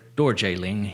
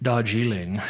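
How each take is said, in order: First: The first syllable is said like 'dor'. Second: The first syllable is said like 'dar'. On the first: This is the local pronunciation, meaning land of thunder. The speaker calls it right. "the less British pronunciation" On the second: This is the more British pronunciation. The speaker calls it wrong. "It's not Darjeeling"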